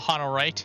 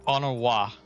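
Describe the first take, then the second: First: The name ends with an 'ite' sound. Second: The name ends with an 'a' sound. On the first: The speaker calls it wrong. "I'm gonna keep saying it Honorite" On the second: The speaker calls it right. "Saying it wrong the whole time"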